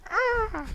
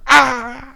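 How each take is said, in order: First: The scream is weak and quiet. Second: The scream is louder and stronger.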